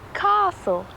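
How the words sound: It is said with a British accent. "the British say castle"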